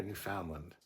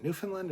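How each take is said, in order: First: Newfoundland as new-FOUND-lund; Newfoundland, full middle. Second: Unsure about a place name, Newfoundland as NEW-fun-lund; Newfoundland, reduced middle. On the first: Streamer offering the other version, Newfoundland as new-FOUND-lund. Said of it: "I think they're both correct". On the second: Streamer asking viewers how it's said, Newfoundland as NEW-fun-lund. I think they're both correct. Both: Shown as a demonstration.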